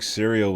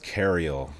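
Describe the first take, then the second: First: The word begins with a soft s sound. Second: The word begins with a hard k sound.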